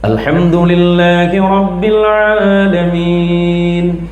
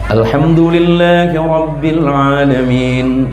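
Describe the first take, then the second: First: It is recited slowly and deliberately. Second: It is recited at a moderate pace. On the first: "Itu kan tartil" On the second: "Yang kedua tadwir, di tengah"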